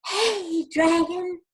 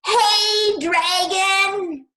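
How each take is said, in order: First: High, loud shout to copy; a high demo shout. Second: Very high, very loud shout; a piercing high shout; shouting as loud as possible. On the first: Shown as a demonstration. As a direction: shout it up for the kids. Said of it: "Can you shout like that". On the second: Acted. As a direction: yell right into his ear. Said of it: "shouted as loud as she could".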